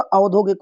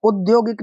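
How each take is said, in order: First: औद्योगिक begun with a long "au"; correct opening vowel. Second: औद्योगिक begun with a short "u", as "udyogik"; wrong opening vowel. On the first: Teacher giving the correct form, "au" starting औद्योगिक. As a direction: open औद्योगिक on a clear "au". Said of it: "होता है". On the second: Teacher rejecting a form, short "u" starting औद्योगिक. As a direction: open औद्योगिक on "u" instead of "au". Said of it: "नहीं होता". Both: Shown as a demonstration.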